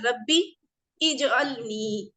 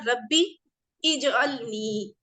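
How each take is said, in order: First: The words are separate, with the vowel sounded. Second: The same.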